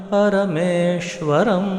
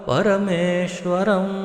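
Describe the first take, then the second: No difference in how they are said.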